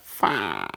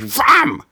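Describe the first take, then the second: First: It is said in a stoned way. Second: It is said in an angry way.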